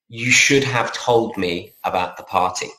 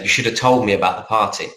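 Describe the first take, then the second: First: Each word is said fully and separately. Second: The words flow together with sounds reduced. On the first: The speaker calls it wrong. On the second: The speaker calls it right.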